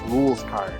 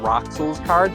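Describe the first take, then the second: First: The first part sounds like 'Rules'. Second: The first part sounds like 'Roxels'. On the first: The speaker calls it right. "it's actually pronounced" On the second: The speaker calls it wrong. "you've been pronouncing his name as"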